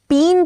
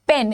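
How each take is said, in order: First: The vowel is a long 'ee' sound. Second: The vowel is a light 'eh' sound. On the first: The speaker calls it wrong. "पीन थोड़ी है" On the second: The speaker calls it right. "लेकिन पेन है। लाइट ए का sound है ये।"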